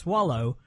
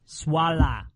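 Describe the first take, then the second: First: The word ends with an 'oh' sound. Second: The word ends with an 'uh' sound. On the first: This is the word as normally said. "It's Swallow" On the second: This is how the singer says it. "he pronounces it as Swalla"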